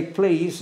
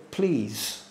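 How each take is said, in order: First: Said in the usual way. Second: A softer, lower, gently asking please; polite please. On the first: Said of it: "if people don't say". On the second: Shown as a demonstration. Preacher to congregation, quoting the please God never says, soft and low. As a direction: set the word "Please." apart as a soft, lower polite request. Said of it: "nowhere does God say".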